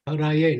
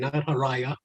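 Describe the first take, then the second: First: The word ends with an 'e' vowel. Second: The word ends with an 'a' vowel. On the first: It addresses Hari. The speaker calls it right. "See how it's spelled? Haraye" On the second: It glorifies Shiva instead. The speaker calls it wrong.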